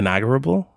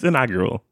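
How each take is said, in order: First: The word has an extra 'b' sound near the end. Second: The word has no 'b' sound near the end. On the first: The speaker calls it wrong. "I've been mispronouncing it since I was a kid" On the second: The speaker calls it right. "No, it's inaugural"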